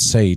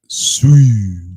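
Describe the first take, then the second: First: The name is said like 'say'. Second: The name is said like 'sooey'. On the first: The speaker calls it right. "pronounce say" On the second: The speaker calls it wrong. "not sui"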